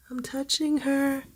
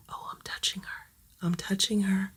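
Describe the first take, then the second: First: Said in the usual way. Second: Hushed, breathless whisper; thrilled whispered aside; excited whisper. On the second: Real, not acted. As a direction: whisper so the kitten won't bolt. First time petting scared kitten.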